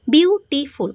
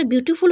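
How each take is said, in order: First: বিউটিফুল broken into separate syllables, বিউ-টি-ফুল. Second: Said in the usual way. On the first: Shown as a demonstration. Teacher showing the class the word has many syllables, বিউটিফুল split syllable by syllable. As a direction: sound out বিউটিফুল one syllable at a time. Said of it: "অনেকগুলো syllable হয়ে যাচ্ছে". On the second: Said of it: "কিন্তু যখন সেটা বিউটিফুল হয়ে যেত".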